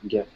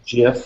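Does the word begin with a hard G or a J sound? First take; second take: hard G; J sound. First: The word begins with a hard G sound. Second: The word begins with a soft J sound. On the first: "with a" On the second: "with a J"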